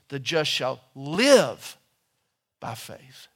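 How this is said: The stress is on the word live.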